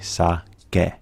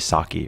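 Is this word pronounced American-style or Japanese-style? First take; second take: Japanese; American. First: The final vowel is said the Japanese way. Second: The final vowel is said the American way. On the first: The speaker calls it right. "it's going to make that E sound. So it should be sake" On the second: The speaker calls it wrong. "Most people in America are going to say sake, right? Totally not correct"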